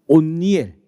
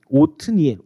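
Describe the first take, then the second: First: The first syllable has no t ending. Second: The first syllable ends with a t sound. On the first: The speaker calls it wrong. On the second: The speaker calls it right.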